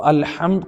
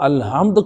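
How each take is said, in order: First: First الحمد with a pharyngeal ح; throaty Arabic ح in الحمد; correct throat ح. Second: الحمد misread with a plain h; الحمد said wrongly, no throaty ح; mispronounced ح. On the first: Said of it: "الحمد حق کے ساتھ ہے". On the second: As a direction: swap the ح in الحمد for a light ہ. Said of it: "الحمد پڑھ دیتا ہے". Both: Shown as a demonstration.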